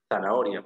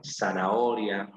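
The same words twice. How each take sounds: First: "zanahoria" starting with a th sound; th-like Z opening "zanahoria"; Castilian Z. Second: "Zanahoria" drawn out with the Z said as S; slow S-initial "Zanahoria"; seseo. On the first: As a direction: say "zanahoria" the Spanish way, tongue between the teeth. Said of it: "con Z". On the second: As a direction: say "Zanahoria" slowly, starting on a clear S. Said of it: "con S". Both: Shown as a demonstration.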